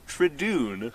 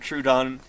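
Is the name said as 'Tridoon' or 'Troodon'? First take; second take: Tridoon; Troodon. First: The name is said as 'Tridoon'. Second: The name is said as 'Troodon'. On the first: This is how someone else mispronounced the name. The speaker calls it wrong. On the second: This is the usual way to say the name. The speaker calls it right. "not Troodon"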